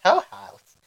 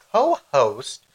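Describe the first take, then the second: First: Co-host sung up high and rising. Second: Said in the usual way. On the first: Shown as a demonstration. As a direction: stretch co-host upward in a squeal. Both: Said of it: "co-host repeated".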